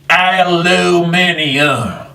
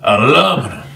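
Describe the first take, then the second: First: It is said with five syllables, ending -minium. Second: It is said with four syllables, ending -minum. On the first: The speaker calls it wrong. "the British English aluminium" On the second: The speaker calls it right. "I say aluminum"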